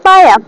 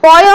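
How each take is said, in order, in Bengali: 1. এটি দুই অক্ষরে উচ্চারিত হয়, 'pa-ya'। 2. এটি এক অক্ষরে উচ্চারিত হয়, 'poy'। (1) "এইটা হবে উচ্চারণ স্থাপায়া" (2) "পয় নয়"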